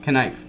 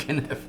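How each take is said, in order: First: Knife repeated as kuh-NIFE; corrected pronunciation of Knife. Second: Kniff said kuh-NIFF; habitual pronunciation of Kniff. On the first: Repeating the guest's correction, Knife as kuh-NIFE. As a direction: say Knife with sounded K and long I. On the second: Admitting his old habit, Kniff as kuh-NIFF. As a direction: say Kniff with sounded K and short I. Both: Shown as a demonstration. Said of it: "I've always said Kniff".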